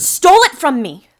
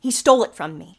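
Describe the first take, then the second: First: Much louder, higher outburst; furious shout. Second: Loud, insistent, still held in; firm angry accusation. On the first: Miss Miller shouting over the detective's doubt, enraged. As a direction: yell the accusation at full force. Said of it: "calm down". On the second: Miss Miller accusing Birch to the detective, controlled anger. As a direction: state the theft with controlled fury. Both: Acted.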